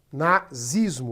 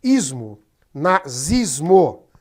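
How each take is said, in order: First: Said in the usual way. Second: Nazismo drawn out slowly, stressed; emphatic. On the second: Shown as a demonstration. Teacher spells out the word for the class, slowly. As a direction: stretch nazismo, leaning on it. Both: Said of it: "nacional socialismo".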